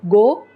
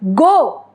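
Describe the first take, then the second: First: It is said plainly, without emotion. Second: It is said with an angry intonation. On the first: It is just an instruction to leave. "If I am telling it simply go" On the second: The speaker is angry. "the intonation changes, that expresses my anger"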